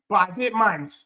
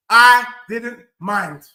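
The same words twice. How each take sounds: First: Said in the usual way. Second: "I didn't mind" drawn out, each word separate; "I didn't mind" said slowly and firmly, with a falling end; slow emphatic repeat. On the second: Real, not acted. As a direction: land hard on "I", then space out "didn't mind".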